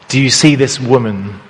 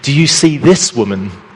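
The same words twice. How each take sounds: First: The stress is on the word woman. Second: The stress is on the word this.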